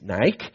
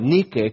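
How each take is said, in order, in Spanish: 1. Se dice como en inglés 'NAI-kee'. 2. Se dice como en español 'NEE-keh'. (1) "como el tenis" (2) "realmente se debe pronunciar como se lee en español"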